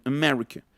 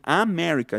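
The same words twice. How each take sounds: First: "America" as "uh-MER-ica", weak first vowel; reduced edges on "America"; schwa. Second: "America" with a clear open first A; unreduced "Ah-merica"; full vowel. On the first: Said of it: "dicen America". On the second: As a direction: overdo the opening "Ah" in "America". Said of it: "No dicen America". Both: Shown as a demonstration.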